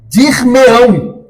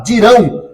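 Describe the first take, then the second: First: Dir-me-ão drawn out slowly and higher, pronoun stressed; slow mesoclisis. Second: Said in the usual way. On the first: Shown as a demonstration. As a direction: stretch out Dir-me-ão as a formal demo. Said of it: "então você diz". (Dir-me-ão dito devagar e mais agudo) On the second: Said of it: "Ao invés de você falar".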